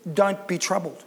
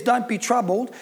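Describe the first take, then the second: First: Softer, lower, coaxing 'don't be troubled?'; gentle suggestion. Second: Said in the usual way. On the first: Shown as a demonstration. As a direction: offer it tenderly to the listener. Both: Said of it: "can I suggest".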